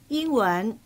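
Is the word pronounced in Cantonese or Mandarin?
Mandarin. The word is pronounced the Mandarin way. "普通话入边亦用到英文呢个词，不过就读成英文"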